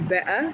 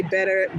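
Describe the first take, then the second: First: Better with the T dropped, "be'uh", rising; British pronunciation. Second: Said in the usual way. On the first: Shown as a demonstration. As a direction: say better the British way, glottal stop for the T. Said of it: "do you say better".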